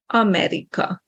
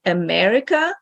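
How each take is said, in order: First: America with first A stressed and every vowel clear; AH-meh-ree-ka, no swallowed vowels in America; Hungarian pronunciation of America. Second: America with stress on MER; English pronunciation of America. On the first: Teacher shows every syllable pronounced, Hungarian pronunciation of America. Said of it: "in Hungarian is America". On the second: Teacher returns to previous example, English pronunciation of America. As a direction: say America with a weak, unstressed first vowel. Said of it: "the English word America". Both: Shown as a demonstration.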